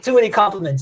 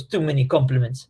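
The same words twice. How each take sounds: First: A light mock French accent, sarcastic and amused. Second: A light mock Russian accent, dry and deadpan. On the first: The speaker as a sarcastic Frenchman dismissing compliments, in a mock French accent. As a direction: wave off the praise in a lightly hammed French accent. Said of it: "he's a sarcastic Frenchman". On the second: The speaker brushing off praise, in a lightly mocked Russian accent. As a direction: toss off the line in a half-hearted Russian accent. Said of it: "that was a Russian accent".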